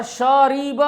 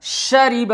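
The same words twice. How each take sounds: First: शरीब dragged out as "shaa-ree-baa"; wrong-example long "shaa-ree-baa" for शरीब; over-long vowels. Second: शरीब as a quick "sha-ri-ba"; short vowels. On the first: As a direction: stretch every vowel of शरीब. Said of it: "शरीब भी नहीं पढ़ेंगे". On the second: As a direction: keep all three syllables of शरीब short. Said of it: "इसको सही तरीका पे पढ़ेंगे". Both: Shown as a demonstration.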